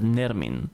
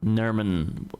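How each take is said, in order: First: The second syllable has an e-like vowel. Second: The second syllable has an uh-like vowel. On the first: "Father Henry says Nermin" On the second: "He goes more of an uh sound than an e"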